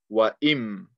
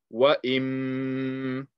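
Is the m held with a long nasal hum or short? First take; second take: short; long hum. First: The m is short without a held nasal hum. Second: The m is held with a long nasal hum. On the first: "We're joining it with the mim" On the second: "We are going to apply ghunna on this meme"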